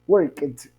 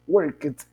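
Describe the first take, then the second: First: The ending sounds like a t. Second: The ending sounds like a t.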